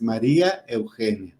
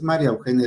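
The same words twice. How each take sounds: First: "María Eugenia" with a clear stressed í in ma-RÍ-a; two separate names. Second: "María Eugenia" as Mariaugenia, no í stress; run-together wrong version. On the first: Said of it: "Así tenemos que pronunciarlo". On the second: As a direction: glue "María" onto "Eugenia", losing the í. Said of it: "no es María Eugenia". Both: Shown as a demonstration.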